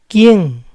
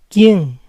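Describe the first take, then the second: Both takes have the same delivery.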